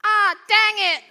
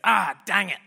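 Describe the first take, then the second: First: Put-on "Ah, dang it" in a much higher, louder, slow little-kid voice; toddler copying dad. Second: Lightly voiced mate, "Ah, dang it" said in the speaker's own pitch with only a touch of extra punch; a casual grumbled "Ah, dang it" as the dad; mate's catchphrase. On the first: Two-year-old falls over and parrots dad, high and slow. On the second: Dad hurts himself and mutters his catchphrase, lightly voiced. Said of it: "he goes".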